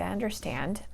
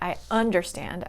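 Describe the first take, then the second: First: The stress is on the second part, stand. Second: The stress is on the first part, under. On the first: The speaker calls it right. "I say I understand" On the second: The speaker calls it wrong. "I don't say I understand"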